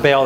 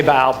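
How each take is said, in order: First: "Baal" said as BAIL; "Baal" as one long-A syllable, bayl; alternate pronunciation. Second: "Baal" said as bah-AHL; "Baal" as bah-ahl, no long A; speaker's usual pronunciation. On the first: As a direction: say "Baal" to rhyme with "sail". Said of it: "that's very good pronunciation". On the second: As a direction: say "Baal" with open ah vowels. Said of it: "I, I say Baal". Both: Shown as a demonstration.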